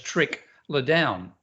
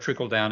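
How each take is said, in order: First: It is split with a break after trick. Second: It is said as one smooth phrase.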